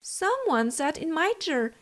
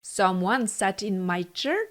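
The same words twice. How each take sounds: First: It is said in a medium, average voice. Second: It is said in a big, gruff voice.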